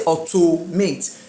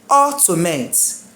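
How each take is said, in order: First: The stress is on the second-to-last syllable. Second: The stress is on the third-to-last syllable. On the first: The speaker calls it wrong. "we used to put the stress on the second to last syllable, which is wrong" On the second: The speaker calls it right. "I will start putting the stress on what? Third to last"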